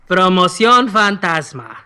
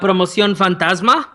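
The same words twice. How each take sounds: First: It is said slowly. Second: It is said at normal speed.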